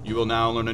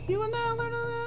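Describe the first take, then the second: First: It is said in a normal speaking voice. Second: It is said in a high falsetto voice. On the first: "I'm sitting here talking in this tone, so I would sing like this" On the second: "you're talking like a girl"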